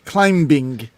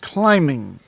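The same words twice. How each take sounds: First: The word has an audible b sound. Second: The word has no b sound. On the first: The speaker calls it wrong. "not climbing" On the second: The speaker calls it right. "We don't pronounce the B, so it's climbing"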